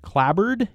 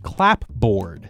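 First: The p is dropped, as 'clabbered'. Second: The p is pronounced, as 'clap-board'. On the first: The speaker calls it right. "I'm just going to decide that this word is pronounced clabbered" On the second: The speaker calls it wrong. "It's spelled as if the word is clapboard. That seems like a dumb way to say it"

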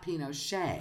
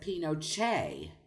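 First: The middle consonant is an 'sh' sound. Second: The middle consonant is a 'ch' sound. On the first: The speaker is of lower social status. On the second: The speaker is of high social class. "an upper class person there would have said"

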